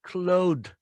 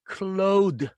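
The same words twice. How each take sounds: First: The word is said as one syllable. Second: The word is split into two syllables. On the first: The speaker calls it right. "그냥 clothed, clothed, clothed 이렇게 발음합니다" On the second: The speaker calls it wrong. "clothed 이렇게 하지 않고"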